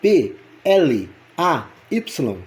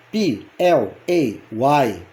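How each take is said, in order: First: P, L, A, Y as pê, ele, á, ípsilon; Portuguese letter names. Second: P, L, A, Y as pee, el, ay, why; English letter names. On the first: Teacher spelling play in Portuguese for learners, Portuguese letter names. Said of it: "constituído na língua portuguesa pelas letras". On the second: Teacher spelling play for learners, English letter names. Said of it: "constituído na língua portuguesa". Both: Shown as a demonstration.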